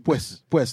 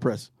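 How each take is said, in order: First: The r is pronounced like a w. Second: The r is pronounced as a plain r. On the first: "they pronounce the R's with a W. It's Pues" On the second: "not Press"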